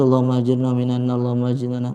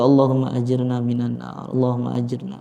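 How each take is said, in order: First: It is rattled off mechanically, without feeling. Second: It is said earnestly, with heartfelt pleading.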